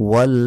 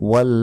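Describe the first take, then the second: The two takes are said the same way.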